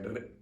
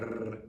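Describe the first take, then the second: First: The R is rolled in a brief tap. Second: The R is rolled in a long trill. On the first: The speaker calls it right. "just a short one" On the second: The speaker calls it wrong. "not like a rrr"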